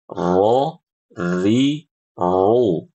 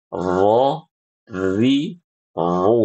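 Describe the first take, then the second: Both takes have the same delivery.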